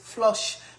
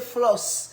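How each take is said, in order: First: The vowel sounds like the u in 'flush'. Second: The vowel sounds like the o in 'floss'. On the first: This is how the mother says it. "I say go flush your teeth" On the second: This is how the children say it. "they say floss"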